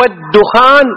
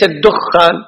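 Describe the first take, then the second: First: "الدخان" as ad-dukhan, single kh; light kha. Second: "الدخان" as ad-dukhkhan, held kh; mistaken doubled kha. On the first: Teacher modelling the word, "الدخان" with light kh. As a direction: slowly, keep the kh of "الدخان" short. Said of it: "بتخفيف الخاء". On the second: Teacher showing what not to say, "الدخان" with heavy kh. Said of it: "وليس". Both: Shown as a demonstration.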